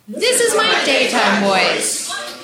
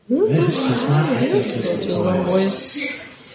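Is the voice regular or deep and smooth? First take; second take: regular; deep and smooth. First: It is said in a regular everyday voice. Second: It is said in a deeper, smoother voice.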